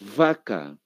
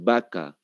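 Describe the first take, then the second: First: The word begins with a v sound. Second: The word begins with a b sound. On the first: This is the standard Spanish pronunciation. The speaker calls it right. "Esa es la correcta pronunciación" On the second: This is how everyone here says it. The speaker calls it wrong. "todo el mundo dice vaca"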